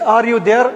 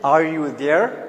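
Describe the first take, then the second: First: It is said in a Pakistani accent. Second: It is said in an American accent.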